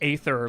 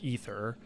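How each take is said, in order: First: The word is said with an American pronunciation. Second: The word is said with a non-American pronunciation. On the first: "like I do as an American" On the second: "instead of"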